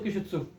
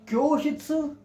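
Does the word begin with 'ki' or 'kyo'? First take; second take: ki; kyo. First: The first syllable is a plain 'ki' sound. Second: The first syllable is a glided 'kyo' sound. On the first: The speaker calls it wrong. "वरना तुम क्यों कर दो, किशित्सु कर दो" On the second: The speaker calls it right. "ऐसे ही बोलना है इसको"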